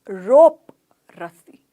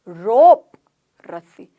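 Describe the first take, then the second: No difference in how they are said.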